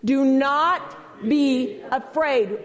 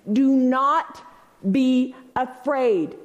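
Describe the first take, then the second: First: Very slow, "not" hit hard; slow call for the crowd to echo; slow emphatic demo. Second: Slow and firm, stressing "not"; emphatic demo. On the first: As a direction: drag out "Do not be afraid" with "not" punched. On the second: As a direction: say "Do not be afraid" slowly, leaning on "not". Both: Shown as a demonstration. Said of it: "Repeat that after me".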